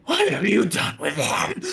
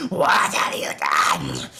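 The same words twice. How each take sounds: First: Loud, high, slow unearthly shout; otherworldly doubled voice, pitched up and drawn out; double speaking voice. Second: Loud, slow, low demonic rasp; undulating, turning voice. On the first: Monstrous mother confronting Thorn, high double-voiced shout. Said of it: "a double speaking voice just going". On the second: Monstrous mother slashing at Thorn, voice turning deep. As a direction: let the voice drop and turn monstrous. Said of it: "undulating and just changing as the voice kind of, uh, turns". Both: Acted.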